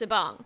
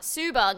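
First: The first syllable has a short uh vowel. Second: The first syllable has a long oo vowel. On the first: The speaker calls it right. "it's Sabong" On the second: The speaker calls it wrong. "it's not Subong"

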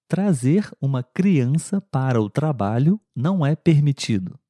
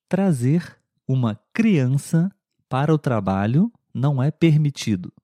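Both takes have the same delivery.

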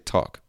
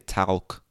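First: The L sound is silent in the word. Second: The L sound is pronounced in the word. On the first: This is how the word is actually said today. The speaker calls it right. "But we say talk" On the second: This is how the word would sound if read as written. The speaker calls it wrong. "We don't say talk because that's the way it should be pronounced if you read it"

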